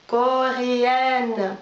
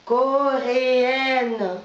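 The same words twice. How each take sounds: The two takes are said the same way.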